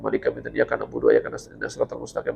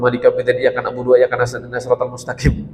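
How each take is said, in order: First: It is recited quietly and hurriedly. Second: It is recited loudly and clearly. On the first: "Kalau tadi kan dipelankan" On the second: "Itu kan versi dikeraskan kan?"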